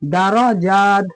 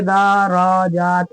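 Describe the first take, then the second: First: दराजात as da-ra-jaat, short da and ra, long jaat; only last syllable stretched. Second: दराजात dragged as daa-raa-jaat; wrongly stretched vowels. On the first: Teacher showing the right reading, दराजात stretched only on jaat. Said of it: "यहाँ पे खींचते हैं". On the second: Teacher showing what to avoid, दराजात with all vowels stretched. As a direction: slowly hold every syllable of दराजात long. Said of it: "ऐसे नहीं पढ़ेंगे". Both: Shown as a demonstration.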